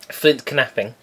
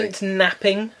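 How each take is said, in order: First: Knapping starts with an audible k sound. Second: Knapping starts with a plain n sound.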